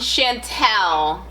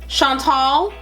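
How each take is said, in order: First: The final syllable sounds like 'tel'. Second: The final syllable sounds like 'tahl'. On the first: The name is changed because of an assumption about its owner. The speaker calls it wrong. "my skin color has now changed my name pronunciation" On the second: The name is said as its owner says it. The speaker calls it right. "you pronounced it correctly the first time"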